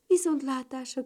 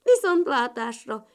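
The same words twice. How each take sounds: First: Said in the usual way. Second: Loud frog-like farewell; touched croak. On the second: A narrator's reading. Frog child parting from the ladybirds, touched croak. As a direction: croak goodbye as the moved little frog. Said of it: "kurutyolta a zöld béka gyerek meghatottan".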